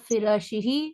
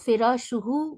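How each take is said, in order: First: The pronoun ending is said with an 'i' vowel. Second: The pronoun ending is said with an 'u' vowel. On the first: The speaker calls it right. "ज़ेर के साथ" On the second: The speaker calls it wrong. "पेश के साथ"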